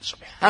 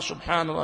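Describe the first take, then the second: First: It is rushed, with sounds swallowed. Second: Every sound is said clearly and fully. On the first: The speaker calls it wrong. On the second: The speaker calls it right.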